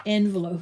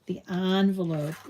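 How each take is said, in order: First: "Envelope" said EN-velope, first vowel as in "end"; en-velope pronunciation. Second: "envelope" said ON-velope, first vowel as in "on"; on-velope pronunciation. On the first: Crafter trying the other version to viewers: "Envelope" as EN-velope. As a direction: start "Envelope" with a short eh, EN-velope. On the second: Crafter saying it her own way to viewers: "envelope" as ON-velope. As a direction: give "envelope" an open ah sound up front, ON-velope. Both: Shown as a demonstration. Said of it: "the only one left saying envelope".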